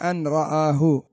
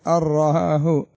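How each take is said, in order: First: The n is clearly pronounced before the r. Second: The n merges fully into a doubled r. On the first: The speaker calls it wrong. "ما هناك أن رآه" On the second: The speaker calls it right. "النون تذهب مع الحرف الذي يليها"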